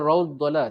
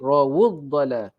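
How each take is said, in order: First: The w runs straight into the d. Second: A short u vowel follows the w. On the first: The speaker calls it wrong. "Jangan rawdala" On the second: The speaker calls it right. "waw ni mesti bunyi wu"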